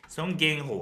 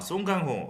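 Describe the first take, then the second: First: The name is said with an anglicized vowel. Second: The name is said with native Korean vowels. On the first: It sounds awkward to Korean listeners. The speaker calls it wrong. "뭔가 좀 그렇잖아요" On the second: It sounds respectful and sophisticated. The speaker calls it right. "뭔가 좀 있어 보이잖아요"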